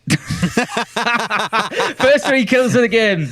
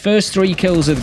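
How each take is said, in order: First: Said slowly, with 'the' clearly audible. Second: Said quickly, with 'the' barely audible. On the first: "There you go" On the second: "I just say it quickly and you can't hear it"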